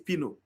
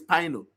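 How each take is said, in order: First: The first syllable matches the start of Pinocchio. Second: The first syllable differs from the start of Pinocchio. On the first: The speaker calls it right. "two is pino" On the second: The speaker calls it wrong. "One is pino"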